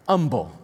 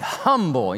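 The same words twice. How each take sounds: First: The word starts without an h sound. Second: The word starts with a clear h sound. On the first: "Is that how you say it? Okay" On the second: "it's got an H in front of it"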